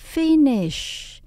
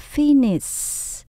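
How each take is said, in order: First: The word ends with a hushing sh sound. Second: The word ends with a hissing s sound. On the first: The speaker calls it right. "Từng cùng có S H chúng ta đọc cong lưỡi" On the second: The speaker calls it wrong. "Mình không được đọc là finish. Các bạn nghe âm S mà có âm gió là đã sai rồi nha"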